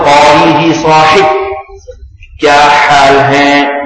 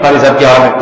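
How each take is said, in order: First: Each sound is articulated with careful, exaggerated precision. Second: The sounds are articulated in a plain, casual way. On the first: The speaker calls it right. "پوری تجوید کے ساتھ" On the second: The speaker calls it wrong. "ایسا نہیں کیا ... اس طرح نہیں"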